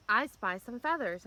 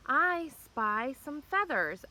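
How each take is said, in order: First: Said in the usual way. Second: Slow and drawn out, pitched up; slow dramatic reveal. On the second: Real, not acted. Vlogger slowly reveals the feathers to viewers, drawn out. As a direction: draw out each word like a suspense reveal. Repeating the discovery for camera.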